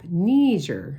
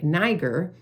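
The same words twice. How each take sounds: First: The first syllable sounds like the word knee. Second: The first syllable sounds like the start of Nigeria. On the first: The speaker calls it right. "It's pronounced like a knee" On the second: The speaker calls it wrong. "they don't pronounce it pronounce it like Nigeria"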